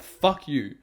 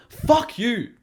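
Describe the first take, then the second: First: Said in the usual way. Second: Higher, sharper fuck you thrown out in anger; angry outburst. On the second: Real, not acted. Ranting at lazy viewers, an angry higher-pitched fuck you. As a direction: spit the words at them, genuinely angry. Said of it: "getting angry".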